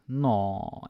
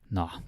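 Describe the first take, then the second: First: It sounds cooing, as at something cute. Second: It sounds like a resigned shrug.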